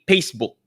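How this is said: The F is replaced by a different sound. "we say Facebook"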